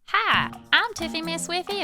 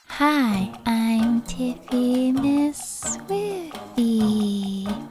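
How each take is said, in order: First: The voice sounds odd and unlike normal. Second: The voice sounds like the speaker's normal voice.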